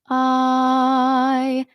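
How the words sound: The vowel starts smoothly with breath and voice together. "a balanced onset"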